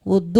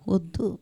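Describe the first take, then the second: First: Short mock no, at normal level; firmer refusal. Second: Soft, shy mock refusal; coy refusal. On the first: Guest refusing snacks a second time, firmer mock no. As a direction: insist you don't want it, half-heartedly. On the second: Guest coyly refusing snacks, much softer. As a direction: pretend politely not to want it. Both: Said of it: "అంటారు".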